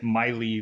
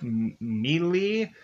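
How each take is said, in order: First: The name is said in an American way. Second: The name is said in a non-American way. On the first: "the the American probably way" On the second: "it it could be like [name]"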